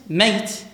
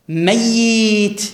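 First: The y sound is single and short. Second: The y sound is doubled and held longer. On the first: The person has left life. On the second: The person is alive but worn out.

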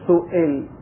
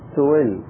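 First: The glottal stop is full, with a strong vowel. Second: The glottal stop is softened, with a weak vowel. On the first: "يعني حركة قوية" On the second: "حركة ضعيفة ينحى بها نحو الساكن"

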